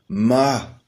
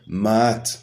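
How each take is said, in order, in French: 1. Le mot finit par une voyelle, pas de son t. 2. Le mot finit par un son t audible. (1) "La prononciation est donc ma" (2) "et non maat"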